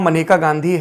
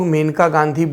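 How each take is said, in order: First: The name begins with a short 'muh' sound. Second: The name begins with a long 'may' sound. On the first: The speaker calls it right. "उनका नाम मनेका गांधी है" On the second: The speaker calls it wrong. "ज़्यादातर लोग मेनका गांधी बोलते हैं, जो कि गलत है"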